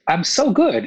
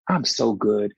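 First: I'm so good, said higher and louder on good; emphatic repeat. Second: Said in the usual way. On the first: Real, not acted. Insisting to the interviewers he is fine, emphatic. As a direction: lean hard into good.

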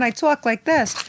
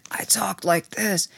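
First: High-pitched character accent; really high show voice. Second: Slow, whispery, smoked-out rasp; smoker's voice. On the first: Actress showing her old TV voice, talking really high. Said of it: "normally I talk really high on the show". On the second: Actress showing her voice from heavy smoking, slow and whispery. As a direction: drag it out with barely any voice. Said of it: "'cause I was smoking friggin' six packs". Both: Shown as a demonstration.

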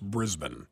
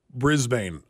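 First: Brisbane as BRIZ-bun, weak second vowel; correct Brisbane pronunciation. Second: Brisbane with the second syllable rhyming with "rain"; mispronounced Brisbane. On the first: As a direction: reduce the end of "Brisbane" to a short "bun". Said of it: "it is actually pronounced". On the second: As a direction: say "Brisbane" as spelled, BRIZ-BAYN. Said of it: "teach Scott how to pronounce". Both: Shown as a demonstration.

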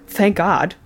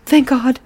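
First: Retold disbelief. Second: Higher, louder mock exclamation of thanks; retold relief. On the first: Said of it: "And he's like". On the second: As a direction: imitate her sudden exclamation. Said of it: "she goes".

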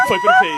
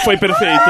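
First: Very high dolphin squeal; squeaky dolphin voice. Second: Said in the usual way. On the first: Acted. Echoing the dolphin imitation.

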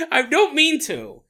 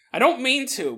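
First: Laughing apology. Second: Said in the usual way. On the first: Real, not acted. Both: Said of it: "dog lovers who keep emailing me".

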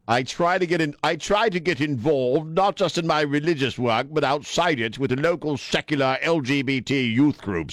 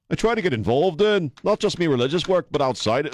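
First: Higher-pitched put-on British accent; wrong British accent. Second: High-pitched, hammed-up Liverpool accent; badly faked Scouse accent, pitched up; terrible Liverpudlian accent. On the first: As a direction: read the quote in a hammed-up British accent. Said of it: "I did the wrong accent". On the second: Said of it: "the worst Liverpudlian accent I've ever done".

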